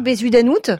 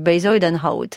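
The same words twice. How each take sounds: First: The name is read with plain French sounds. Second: The name is said closer to its native sounds. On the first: This is the old, less accurate way of saying the name. The speaker calls it wrong. "Au début, on disait vraiment Bezuidenhout" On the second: This is an effort to approach the real pronunciation. The speaker calls it right. "on essaie de faire un petit effort pour se rapprocher du Bezuidenhout"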